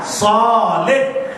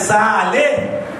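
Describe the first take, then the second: First: The first vowel sounds like 'o'. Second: The first vowel sounds like 'a'. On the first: The speaker calls it right. "soleh, bukan saleh" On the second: The speaker calls it wrong. "bukan saleh"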